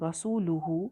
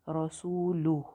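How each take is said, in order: First: The word ends with the full ending -huu. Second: The word ends cut short, dropping -huu.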